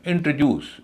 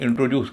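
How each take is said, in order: First: इंट्रोड्यूस as IN-truh-DYOOS; light middle in इंट्रोड्यूस; first and third stress. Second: इंट्रोड्यूस with a full "tro"; common mispronunciation. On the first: Shown as a demonstration. Teacher modelling the word, इंट्रोड्यूस with a reduced middle. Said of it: "तीसरे हिस्से पर stress है". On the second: Retold or imitated. Teacher quoting how people say it, इंट्रोड्यूस with full "tro". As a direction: say इंट्रोड्यूस with an unreduced middle "o". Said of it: "इसको लोग इंट्रोड्यूस कहते हैं".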